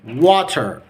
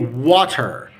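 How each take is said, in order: First: It is said with a clear T and final R. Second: The same.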